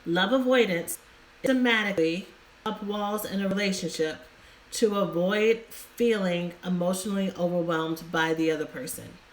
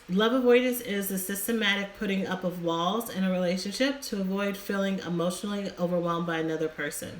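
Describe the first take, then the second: First: It is said slowly. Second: It is said fast.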